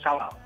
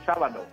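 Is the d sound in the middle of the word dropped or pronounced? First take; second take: dropped; pronounced. First: The middle d sound is dropped. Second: The middle d sound is clearly pronounced. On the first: This is how people in Bogotá say it. The speaker calls it wrong. "en Bogotá no pronunciamos la D. Por ejemplo, decimos sábado" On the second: This is how it should be said. The speaker calls it right. "Hay que decir sábado"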